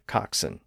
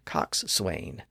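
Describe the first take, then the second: First: No W sound begins the second syllable. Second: A W sound begins the second syllable. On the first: This is the modern form. "giving us modern-day bosun and coxswain" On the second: This follows the spelling. "they look like they should be pronounced boatswain and coxswain"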